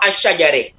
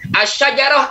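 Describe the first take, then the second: First: The final vowel is tilted toward an 'e' sound. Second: The final vowel is an open 'a' sound.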